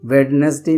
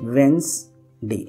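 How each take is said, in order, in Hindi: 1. बीच का 'd' ध्वनि बोला जाता है। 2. बीच का 'd' ध्वनि मौन रहता है। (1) "वेडनेसडे नहीं बोलते"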